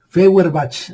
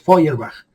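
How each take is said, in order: First: It is read letter by letter, Spanish style. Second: It is said with German sounds. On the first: The speaker calls it wrong. "así se lee" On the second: The speaker calls it right. "así se pronuncia en alemán"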